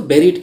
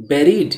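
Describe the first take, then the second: First: BURIED with an "eh" first vowel, "BEH-reed"; BURIED opening like the word "berry"; correct pronunciation. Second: BURIED with an "uh" first vowel, "BUH-reed"; wrong pronunciation. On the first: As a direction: say BURIED like "berried". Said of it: "इसको buried कहेंगे". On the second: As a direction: mispronounce BURIED as "burr-eed". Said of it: "buried नहीं बोलेंगे". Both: Shown as a demonstration.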